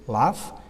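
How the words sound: The vowel is a long open 'ah' sound. "do British"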